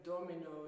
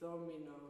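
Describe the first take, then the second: First: The word begins with a hard d sound. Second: The word begins with a soft th sound. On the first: The speaker calls it wrong. "instead of domino" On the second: The speaker calls it right. "the D has become so soft, it becomes a th"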